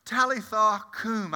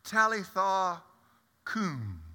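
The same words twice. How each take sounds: First: Stunned echo. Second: Gently, fading away on "Talitha cum"; tender Aramaic call. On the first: Real, not acted. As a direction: repeat "Talitha cum" as if you can't believe it. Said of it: "I couldn't believe it". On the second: Acted. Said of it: "And he says".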